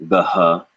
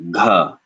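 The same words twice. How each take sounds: First: "gaha" with the h after the vowel as a separate beat; wrong split gaha. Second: "gha" with g and breath at the same instant; aspirated gha. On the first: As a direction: say "gaha" breaking g and h apart. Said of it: "It's not". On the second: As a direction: say "gha" with air bursting out with the g. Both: Shown as a demonstration.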